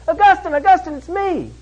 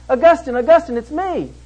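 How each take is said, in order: First: Much higher, put-on woman's voice; insistent calling out. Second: Higher-pitched woman's call from behind. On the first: Old girlfriend calls after Augustine as he hurries off, insistent high call. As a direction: imitate her calling louder after someone walking away. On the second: Retold or imitated. Old girlfriend calls to Augustine from behind, calling out. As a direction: imitate someone hailing an old lover in the street.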